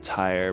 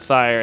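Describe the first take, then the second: First: The name starts with a plain t sound. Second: The name starts with a lisped th sound. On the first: The speaker calls it right. "Maybe I should just go with Tyre" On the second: The speaker calls it wrong. "now it just sounds like another word with a lisp"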